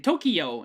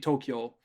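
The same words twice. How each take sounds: First: The ending is split into two syllables, ki-yo. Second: The ending is a single syllable, kyo. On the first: The speaker calls it wrong. "people mispronounce it. They say Tokyo" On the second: The speaker calls it right. "when it's actually Tokyo"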